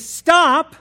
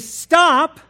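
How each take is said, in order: First: It is said as a sharp command. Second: The same.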